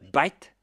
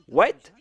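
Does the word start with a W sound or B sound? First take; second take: B sound; W sound. First: It is said in an Indian accent, starting with B. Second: It is said in standard English, starting with W.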